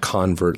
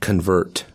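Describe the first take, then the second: First: The stress is on the first syllable. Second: The stress is on the second syllable. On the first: It is the noun, a converted person. The speaker calls it wrong. "not convert, like a noun" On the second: It is the verb, the act of converting. The speaker calls it right. "like a verb"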